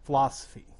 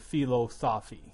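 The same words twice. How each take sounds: First: A sound or syllable is dropped from the word. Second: Every syllable of the word is pronounced.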